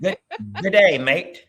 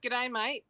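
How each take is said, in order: First: Put-on trying the Australian accent. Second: Australian accent model. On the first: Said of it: "we're gonna try to repeat it". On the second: Shown as a demonstration. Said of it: "give us an expression or a phrase".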